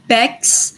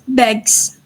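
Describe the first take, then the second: First: The ending is voiceless, like 'ks'. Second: The ending is voiced, like 'gz'. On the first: The speaker calls it wrong. "instead of Bex" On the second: The speaker calls it right. "we pronounce it at, as Begs, which we call it uh, plus voice"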